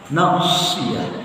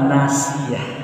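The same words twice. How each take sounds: First: The s sound is heavy and emphatic. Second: The s sound is light and plain. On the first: It means forelock. The speaker calls it right. "ucapkan huruf shadnya dengan fasih" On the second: It means forgetting. The speaker calls it wrong.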